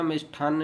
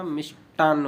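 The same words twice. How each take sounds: First: मिष्ठान्न with aspirated ठ; wrong pronunciation. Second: मिष्टान्न with unaspirated ट; dry ट, no breath, in मिष्टान्न; correct pronunciation. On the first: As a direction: puff air on the ठ of मिष्ठान्न. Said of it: "मिष्ठान्न नहीं होता". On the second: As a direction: say मिष्-टान्न with plain ट. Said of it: "मिष्टान्न होता है". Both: Shown as a demonstration.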